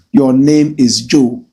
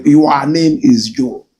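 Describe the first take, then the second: First: "Your" said as a short clean "yor"; correct "your". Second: "Your" stretched into two syllables, "yu-a"; mock the guest by saying "Your" as "yu-a"; imitating "you are". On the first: Shown as a demonstration. Host modelling the right way to say "Your", with "Your" as short "yor". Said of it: "supposed to be "your". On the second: Host mocking how the politician mangles "Your", stretched to "yu-a". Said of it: "That's how he speaks".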